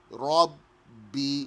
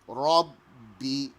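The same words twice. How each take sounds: Both takes have the same delivery.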